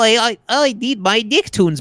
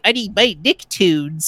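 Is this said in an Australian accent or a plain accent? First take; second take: Australian; plain. First: It is said in an Australian accent. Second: It is said in the speaker's ordinary accent.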